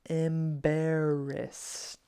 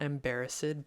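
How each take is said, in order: First: The ending blends straight into a T sound. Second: The ending does not blend straight into T. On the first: The speaker calls it right. "but embarrassed" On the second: The speaker calls it wrong. "Not embarrassed"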